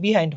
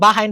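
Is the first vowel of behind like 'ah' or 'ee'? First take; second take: ee; ah. First: The first vowel sounds like 'ee'. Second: The first vowel sounds like 'ah'. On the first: The speaker calls it wrong. "বিহাইন্ড হয় না" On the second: The speaker calls it right. "এটার উচ্চারণ বাহাইন্ড হয়"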